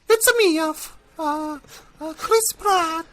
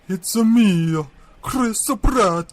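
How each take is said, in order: First: The put-on voice is pitched high. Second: The put-on voice is pitched lower.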